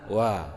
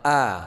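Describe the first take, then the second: First: The vowel starts with a rounded w sound. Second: The vowel starts cleanly with an open mouth. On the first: The speaker calls it wrong. "tapi kita baca wa" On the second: The speaker calls it right. "bukan a"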